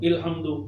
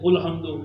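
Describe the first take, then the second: First: The word begins with an i vowel. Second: The word begins with a u vowel. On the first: "मैं कहता हूं इल्हम्दु" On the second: "हजरत मुफ्ती साहब कहते हैं उल्हम्दु"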